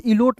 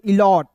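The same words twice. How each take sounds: First: इलोट said with a long o, the wrong way; teacher gives इलोट as the reading to avoid. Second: इलॉट said with a short open o; teacher gives इलॉट as the correct reading; right reading. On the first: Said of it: "इलोट नहीं पढ़ेंगे". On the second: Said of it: "इसे पढ़ेंगे इलॉट". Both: Shown as a demonstration.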